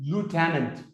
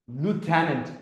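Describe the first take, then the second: The two takes are said the same way.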